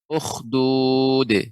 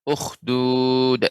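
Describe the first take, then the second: First: The final d is released with a bounce. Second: The final d stops abruptly without a bounce. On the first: The speaker calls it right. "tapi ukhdud" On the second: The speaker calls it wrong. "pengucapan dalnya tidak ukhdud, bukan ya"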